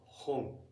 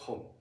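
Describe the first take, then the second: First: The final n is held as its own beat. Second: The word is clipped into one short syllable. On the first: The speaker calls it right. "it has two moras" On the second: The speaker calls it wrong. "It's not hon"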